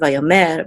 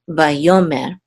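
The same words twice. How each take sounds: First: The stress is on a different syllable. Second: The stress is on the second syllable. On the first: The speaker calls it wrong. "not vayomer" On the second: The speaker calls it right. "but vayomer"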